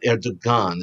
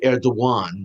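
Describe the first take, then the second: First: The middle consonant is a hard g sound. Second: The middle consonant sounds like a w glide. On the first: The speaker calls it wrong. "not Erdogan" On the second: The speaker calls it right. "it's pronounced, by the way, Erdogan ... which in Turkish means it's a W"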